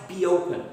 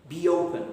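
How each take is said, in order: First: A y sound links the two words. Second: A y sound links the two words.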